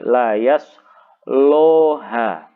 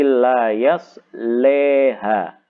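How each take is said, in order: First: The L is heavy with a dark vowel. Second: The L is light with a thin vowel. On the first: "Lamnya dibaca tagulid" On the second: "bitaklil wa tarkikil lam"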